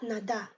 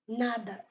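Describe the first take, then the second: First: The stress is on the last syllable. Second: The stress is on the first syllable. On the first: The speaker calls it wrong. "et pas nada" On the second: The speaker calls it right. "on donne accent sur N A"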